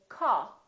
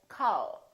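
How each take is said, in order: First: The final L is dropped with the tongue down. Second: The final L is clearly sounded with tongue up. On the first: The speaker calls it wrong. "the common mistake ... keep the tongue down and not use the tongue" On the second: The speaker calls it right. "instead of call"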